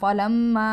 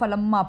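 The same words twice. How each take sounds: First: The vowel after the m is long. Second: The vowel after the m is short. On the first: The speaker calls it right. "मीम के बाद अलिफ मद्दा है, लंबा करेंगे" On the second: The speaker calls it wrong. "अक्सर लोग इसको फलम्मा पढ़ते हैं"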